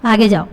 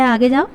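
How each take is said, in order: First: A touch of arrogant brush-off; clipped-off command to go away; haughty dismissal. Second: Light dismissive wave-off to a beggar; mild contemptuous brush-off; shooing a beggar. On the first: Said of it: "ایسے کہا کہ". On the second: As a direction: say آگے جاؤ as if shooing away a beggar. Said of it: "جس طرح سے ہم بھکاری کو کہتے ہیں". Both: Shown as a demonstration.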